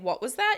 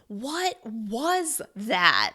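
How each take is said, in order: First: No word gets extra stress. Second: Every word is stressed separately. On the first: It is a plain request to repeat. "Instead of saying" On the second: The listener is shocked and cannot believe it. "you're going to stress each word individually"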